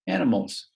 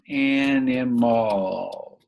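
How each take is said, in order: First: Said in the usual way. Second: "Animals" stretched very slowly; "Animals" in long, slow syllables; drawn out while writing. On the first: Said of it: "There we go". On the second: Shown as a demonstration. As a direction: say "Animals" slowly, drawing out each syllable as you write it. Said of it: "let's just write the word".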